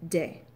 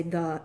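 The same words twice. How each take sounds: First: "de" with a D and short E; the article said as "de", Irish-style. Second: Said in the usual way. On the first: Shown as a demonstration. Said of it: "a short E sound". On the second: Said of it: "we like to say the".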